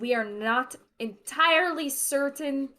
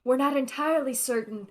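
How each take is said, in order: First: It is said in a different voice. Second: It is said in the character's voice. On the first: The speaker calls it wrong. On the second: The speaker calls it right.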